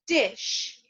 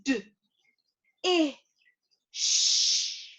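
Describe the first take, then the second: First: Said in the usual way. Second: "D, I, sh" as three isolated phonemes, not letter names; sounded out. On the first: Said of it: "bring it back together and say it together". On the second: Shown as a demonstration. Teacher leading learners through a new word, sounded out. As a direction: break "dish" apart slowly with pauses, holding the sh. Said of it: "Now I'm gonna sound it out".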